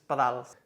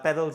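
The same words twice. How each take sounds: First: The word is said with Catalan pronunciation. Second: The word is said with English pronunciation. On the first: "you just change the intonation" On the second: "you just change the intonation"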